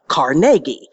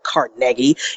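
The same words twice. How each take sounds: First: It is said the local Pittsburgh way. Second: It is said the way New Yorkers say it. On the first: The speaker calls it right. "I say it the right way" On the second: The speaker calls it wrong. "Not the way those New Yorkers think it is"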